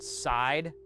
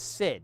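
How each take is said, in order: First: The vowel sounds like 'eye'. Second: The vowel is a short 'ih'. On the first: The speaker calls it wrong. "people used to pronounce it side" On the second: The speaker calls it right. "No, it's Sid"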